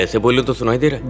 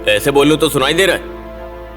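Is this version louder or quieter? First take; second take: quieter; louder. First: It is spoken even more quietly, very softly. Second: It is spoken fairly softly, but still audibly loud. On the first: The speaker calls it right. "और धीरे।" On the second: The speaker calls it wrong. "धीरे बात करूं?"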